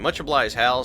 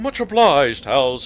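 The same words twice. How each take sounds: First: It is read in a plain, ordinary voice. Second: It is read in a theatrical, old-fashioned stage voice.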